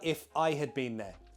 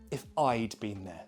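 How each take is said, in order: First: 'I had' is said as two full words. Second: 'I had' is shortened to one syllable. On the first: "The full correct sentence" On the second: "Or contracted"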